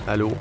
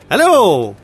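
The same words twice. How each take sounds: First: It sounds gloomy, like someone not doing well. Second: It sounds overly cheerful and very upbeat.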